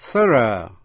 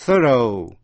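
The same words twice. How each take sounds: First: "Thorough" the British way, ending in a short schwa; British pronunciation. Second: "thorough" the American way, ending in a full "oh"; American pronunciation. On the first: Teacher shows students the British reading of thorough. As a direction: say "Thorough" as a British speaker would. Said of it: "Thorough theo người Anh". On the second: Teacher shows students the American reading of thorough. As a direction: say "thorough" as an American speaker would. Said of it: "thorough theo người Mỹ". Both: Shown as a demonstration.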